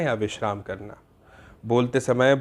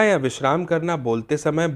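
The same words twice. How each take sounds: First: There is a clear pause before the next phrase. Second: The phrases run together without a pause between them. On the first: The meaning is easy to follow. The speaker calls it right. "अब अगर मैं सही जगह पर रुकूं" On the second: The meaning is hard to follow. The speaker calls it wrong. "मैं गलत जगहों पर रुका"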